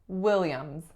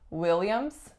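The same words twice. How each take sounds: First: The final s sound is voiced, like z. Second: The final s sound is voiceless. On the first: The speaker calls it right. "the final letter S is in fact voiced" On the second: The speaker calls it wrong. "So it's not Williams"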